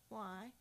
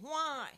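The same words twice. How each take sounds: First: It sounds sincere and questioning. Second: It sounds angry and accusing.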